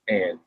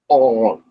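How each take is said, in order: First: The word sounds just like 'ant'. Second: The word has a vowel unlike 'ant'. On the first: The speaker calls it wrong. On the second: The speaker calls it right.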